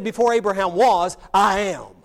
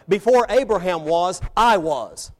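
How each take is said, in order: First: Loud, deliberate "I am" after a short hold; emphatic and deliberate. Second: Firm demonstration, "I was" set off strongly; expected wording. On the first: Teacher showing how Jesus actually said it, emphatic and deliberate. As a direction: punch "was", then land "I am" firmly. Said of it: "It's emphatic and deliberate". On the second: Teacher showing how we would normally say it, firm. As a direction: state "I was" as the expected ending, firmly. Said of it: "said this way". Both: Shown as a demonstration.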